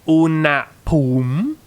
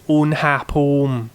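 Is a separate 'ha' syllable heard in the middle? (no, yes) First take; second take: no; yes. First: The middle 'ha' syllable is left out. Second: The middle 'ha' syllable is clearly pronounced. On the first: The speaker calls it wrong. "So this is not unapum" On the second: The speaker calls it right. "This is unhapum. So you're actually pronouncing this as its own syllable"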